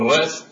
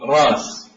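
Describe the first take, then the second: First: It has a glottal stop in the middle. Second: It has a long vowel, no glottal stop. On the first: This is how the Tamim tribe says it. "التميمي يقول" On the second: This is how the Quraysh tribe says it. "القرشي يقول"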